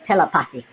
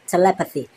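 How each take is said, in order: First: The word is said in a Jamaican way. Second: The word is said in a non-Jamaican way. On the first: "Instead of Jamaicans we say telepathy" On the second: "That's how some people say telepathy"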